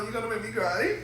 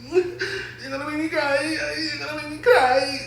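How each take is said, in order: First: Soft high laughing plea; laughing near tears. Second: High, slowed fake-weepy whine; milk it like you're about to cry; mock crying. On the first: Vlogger moved by the honeymoon surprise, soft laughing plea. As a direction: laugh through it, almost crying. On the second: Vlogger hamming up tears over the honeymoon, high mock whine. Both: Real, not acted.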